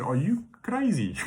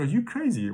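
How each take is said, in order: First: Said in the usual way. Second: Put-on higher-pitched Afrikaans-accented "crazy"; imitating an Afrikaans accent, pitched up. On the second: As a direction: redo it as the Afrikaans colleague would. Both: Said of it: "She got Afrikaans accent".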